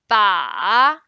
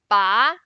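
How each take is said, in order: First: The pitch dips low, then rises. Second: The pitch rises from middle to high. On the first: It means the target. "the third one" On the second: It means to pull. "The second one"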